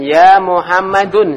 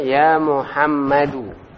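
First: The name ends with an added n sound. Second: The name ends on a vowel without n. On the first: The speaker calls it wrong. "Enggak boleh antum katakan ya Muhammadun salah" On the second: The speaker calls it right. "Ya benar ya Muhammadu"

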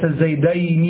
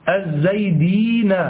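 First: An a vowel comes before the y sound. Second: An i vowel comes before the y sound. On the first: It is a dual. The speaker calls it wrong. "وليس الزيدين" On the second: It is a sound masculine plural. The speaker calls it right. "يكسر ما قبله ويفتح ما بعده، فتقول الزيدين"

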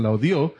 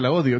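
First: The stress falls on the last syllable of odio. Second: The stress falls on the first syllable of odio. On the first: Someone else hated it in the past. The speaker calls it right. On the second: The writer says he hates her now. The speaker calls it wrong.

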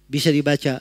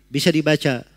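The two takes are said the same way.

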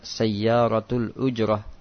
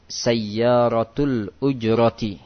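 First: The last word ends in a stopped h sound. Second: The last word ends with a full vowel ending. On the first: The speaker pauses and stops on the word. "Kalau mau dihentikan sebenarnya bisa sayyaratul ujrah, waqaf, berhenti, disukunkan" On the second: The word is read without stopping on it. "harokatnya semuanya dibaca"

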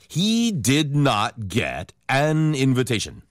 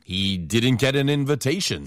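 First: The sentence is spoken slowly, word by word. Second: The sentence is spoken fast with words run together.

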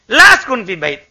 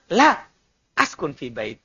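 First: It is said as one phrase without a break. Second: There is a break after the first word. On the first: The speaker does not live in the house. "Saya tidak tinggal di rumah" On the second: The speaker says no, then says they live in the house. "Saya tinggal di rumah"

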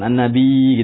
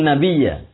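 First: The word stops on a bare y sound. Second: The word ends with a doubled y and 'a'. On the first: The speaker calls it wrong. "Ya-nya bertasdid tapi antum mensukunkan" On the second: The speaker calls it right. "Yang betul adalah?"

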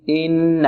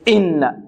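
First: The opening glottal stop is soft and smooth. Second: The opening glottal stop is jabbed abruptly. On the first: The speaker calls it right. "سهلة سلسة هكذا" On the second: The speaker calls it wrong. "والبعض يلكز الهمزة"

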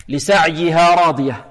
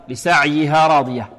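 No difference in how they are said.

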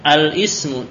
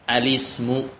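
First: A glottal stop separates al from ismu. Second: The l links straight into the vowel. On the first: The speaker calls it wrong. "bacanya bukan al ibnu al ismu, tidak" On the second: The speaker calls it right. "Harokatnya dinakal, dipindah. Dipindah ke lam"

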